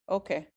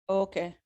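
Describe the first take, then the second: The two takes are said the same way.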